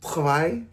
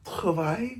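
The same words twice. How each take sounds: First: Travail tried with a French R, rising and unsure; tentative French Travail; trying French. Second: Travail softer, with an effortful French R and rise; retry travail working hard on the R; trying the French R. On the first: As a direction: attempt Travail as the French for work. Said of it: "how do you say work in French?". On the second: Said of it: "I'm really trying with the R". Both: Shown as a demonstration.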